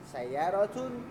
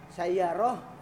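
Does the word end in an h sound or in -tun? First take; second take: -tun; h sound. First: The word ends in a full -tun ending. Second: The word ends in a final h sound. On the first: This is the original full form of the word. "Padahal asalnya sayyaratun" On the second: The word ends an utterance in conversation. "maka semuanya berubah menjadi ha"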